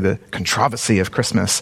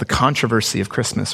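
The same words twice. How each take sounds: First: It is said in a British accent. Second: It is said in the speaker's usual American accent.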